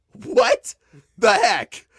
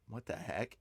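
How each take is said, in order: First: High, loud "what the heck"; re-enacted shock, pitch leaping on "what"; retold shock. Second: Low, very soft "what the heck"; hushed aside to oneself; retold muted disbelief. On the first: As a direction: blurt it out in stunned disbelief. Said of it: "standing in shock". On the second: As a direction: say it under your breath, barely voiced. Retold first quiet reaction.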